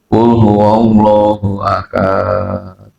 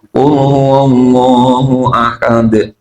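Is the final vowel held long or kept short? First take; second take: long; short. First: The end of the phrase is drawn out long. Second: The end of the phrase is kept short. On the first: The speaker calls it wrong. "setiap akhir berhenti harus panjang" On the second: The speaker calls it right. "dibacanya dengan benar"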